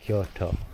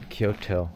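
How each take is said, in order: First: The vowel after 'Ky' is drawn out long. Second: The vowel after 'Ky' is short. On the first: The speaker calls it right. "the actual pronunciation because there's a U in there" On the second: The speaker calls it wrong. "I'm so used to pronouncing the like Americanized version of it"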